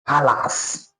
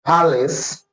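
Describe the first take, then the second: First: Palace said pa-las with a full a in the second syllable; the mistaken palace, no weak vowel; wrong palace. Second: Palace with a short a and a weak schwa-like second vowel; palace, the second syllable reduced to is; correct palace. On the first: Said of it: "and not". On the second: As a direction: palace said PAL-is. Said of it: "It is actually pronounced as". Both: Shown as a demonstration.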